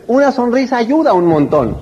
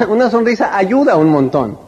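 First: Said in the usual way. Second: Smiling laugh. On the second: Shown as a demonstration.

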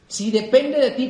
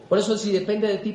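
First: "Si depende de ti" dicho despacio, marcando cada palabra; recálcalo sin prisa; lento y marcado. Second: Said in the usual way. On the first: Shown as a demonstration. (repítelo más lento para que se grabe) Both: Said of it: "repetición enfática".

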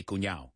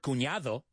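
First: Cuñado ending in "-ao", d left out; dropped d in cuñado. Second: Cuñado with the final "-ado" fully sounded; full cuñado ending. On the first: Teacher showing their usual word, cuñado without the d. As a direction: say cuñado colloquially as "cuñao". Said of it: "I always say cuñado". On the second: Teacher on a word they never say, cuñado with its d. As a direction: pronounce cuñado in full, keeping the d. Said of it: "I've never said the word cuñado". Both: Shown as a demonstration.

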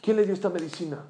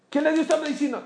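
First: Said in the usual way. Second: Pregunta repetida con alarma, muy aguda; alarmado. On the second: Retold or imitated. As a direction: sube mucho el tono, escandalizado. (pregunta alarmada)

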